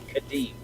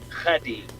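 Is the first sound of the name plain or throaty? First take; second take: plain; throaty. First: The first sound is a plain, clean consonant. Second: The first sound is rough, from the throat. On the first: The speaker calls it wrong. "it's not Khadim" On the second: The speaker calls it right. "It's like you got something stuck in your throat"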